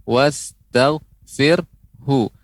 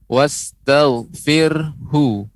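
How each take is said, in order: The two takes are said the same way.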